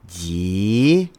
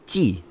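First: The syllable has a rising tone. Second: The syllable has a sharply falling tone. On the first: It means an episode. "second tone, is episode" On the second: It means a season of a TV show. "fourth tone, is season of a TV show"

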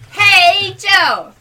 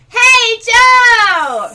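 First: It is said quietly. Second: It is said loudly.

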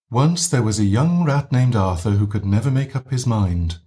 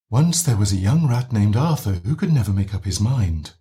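First: The voice is gently breathy, with air leaking out. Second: The same.

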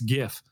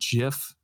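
First: The word begins with a hard G sound. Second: The word begins with a soft J sound. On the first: The speaker calls it right. "It's GIF. I know that" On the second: The speaker calls it wrong. "I hate saying the term GIF"

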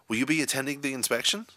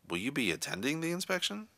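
First: The question is asked in an excited tone. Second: The question is asked in a doubtful tone. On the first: "in an excited tone of voice" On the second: "an insecure or doubtful tone"

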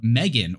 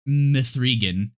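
First: The middle is said as a plain e vowel. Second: The middle is said as the number three.

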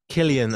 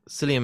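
First: The name begins with a hard K sound. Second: The name begins with a soft S sound. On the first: The speaker calls it right. "Can I ask you to pronounce it Killian?" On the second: The speaker calls it wrong. "I always say Cillian"

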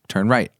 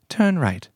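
First: It is said in the speaker's ordinary voice. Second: It is said in an imitated British accent. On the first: The speaker calls it wrong. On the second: The speaker calls it right.

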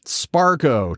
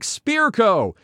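First: The first syllable sounds like spar. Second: The first syllable sounds like spear. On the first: The speaker calls it wrong. "Sparco, too. Tons of oddball stuff" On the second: The speaker calls it right. "It's pronounced like Spearco"

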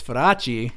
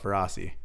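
First: The name is said Italian-style, with a rolled R. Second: The name is said American-style, without a rolled R.

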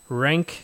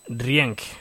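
First: The name is said with an English pronunciation. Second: The name is said with a Spanish pronunciation. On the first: "I believe I'm pronouncing this right" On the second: "If it was Spanish, it would be"

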